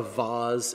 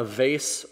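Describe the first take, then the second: First: "vase" with an AH, as VAHZ; fancy pronunciation. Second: "vase" with a long A, rhyming with face; everyday pronunciation. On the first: Correcting himself for an heirloom, "vase" as VAHZ. Fancier alternative, "if you will. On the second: Naming an heirloom, "vase" said as VAYSS. Two pronunciations offered, "if you will. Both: Shown as a demonstration.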